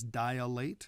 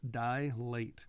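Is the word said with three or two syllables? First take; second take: three; two. First: The word is said with three syllables. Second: The word is said with two syllables. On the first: The speaker calls it wrong. "A lot of times people pronounce the word dilate as dilate" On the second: The speaker calls it right. "It's just two syllables"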